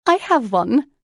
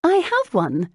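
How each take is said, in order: First: High, loud, rising "I have one"; sudden realization. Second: "have" punched very high and loud; stress on HAVE. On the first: Lucy snaps her fingers, remembering, in excited realization. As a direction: announce "I have one" as a sudden bright idea. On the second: Lucy answers Jane's disbelieving "What?", stressing "have" excitedly. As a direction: repeat it emphatically, leaning on "have". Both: A narrator's reading.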